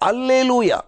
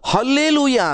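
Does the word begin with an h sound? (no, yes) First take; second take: no; yes. First: The word starts with a vowel, no h. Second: The word starts with an h sound. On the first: This is the original Greek pronunciation. The speaker calls it right. "ಅಲ್ಲೆಲುಯಾ ಹಲ್ಲೆಲುಯಾ ಅಲ್ಲ" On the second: This is the common English and Kannada form. The speaker calls it wrong. "ಅದರ ಉಚ್ಚಾರಣೆ ಹಲ್ಲೆಲುಯಾ ಎಂಬುದಾಗಿ ಇರುವುದಿಲ್ಲ"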